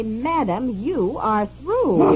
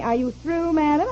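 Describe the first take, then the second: First: Slow, drawn-out final pronouncement; imitated rudeness, stretching out the last words; rude operator. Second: Lightly imitated operator asking; quoted operator's question, rising at the end; operator's query. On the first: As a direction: mimic a curt operator dismissing a caller. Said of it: "said in this rude way". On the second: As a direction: ask it as a polite rising question. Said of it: "finally she says to me".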